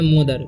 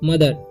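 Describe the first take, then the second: First: The first vowel sounds like 'o'. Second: The first vowel sounds like 'uh'. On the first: The speaker calls it wrong. "M ओ से मुंह पढ़ के और पढ़ लेते हैं मोदर, लेकिन मोदर नहीं" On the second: The speaker calls it right. "ओ का उच्चारण यहाँ पर अ हो रहा है"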